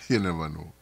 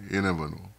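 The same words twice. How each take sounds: The two takes are said the same way.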